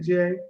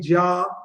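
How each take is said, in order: First: The name sounds like the letter J. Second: The name is said as one syllable, 'Jah'. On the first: The speaker calls it wrong. "I didn't say J" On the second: The speaker calls it right. "That's J A Ja"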